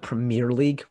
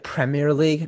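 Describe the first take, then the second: First: Premier is pronounced the American way. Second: Premier is pronounced the British way. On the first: The speaker calls it wrong. "not the Premier League" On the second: The speaker calls it right. "it's the Premier League"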